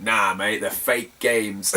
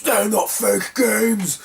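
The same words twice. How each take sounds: First: Low, drawn-out brush-off; dismissive retort. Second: High, very drawn-out protest; mock angry rant. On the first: Retold or imitated. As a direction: wave the seller away in a low voice. Calm refusal against seller's protest. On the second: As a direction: imitate an indignant seller, stretching every word. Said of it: "went into a massive rant".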